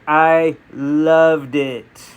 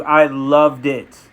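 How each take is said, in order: First: Very slow, separated "I ... loved it"; drawn-out emphasis. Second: Slow, weighted "loved"; deliberate stress on "loved"; emphatic praise. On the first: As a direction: stretch "loved" right out, word by word. Repeats it slower for emphasis. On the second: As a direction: lean on "loved" with slow conviction. Emphatic first take, then repeated slower. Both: Real, not acted.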